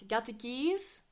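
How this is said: The voice rises at the end, like a question. It asks whether the keys are there. The speaker calls it right. "dat ze het echt wel vraagt"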